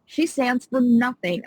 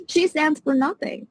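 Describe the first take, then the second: First: Said in the usual way. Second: Pitched up much higher in real indignation; a much higher, heated repeat of "She stands for nothing"; getting mad. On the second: Real, not acted. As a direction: blurt it again, higher and fed up. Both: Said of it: "getting mad".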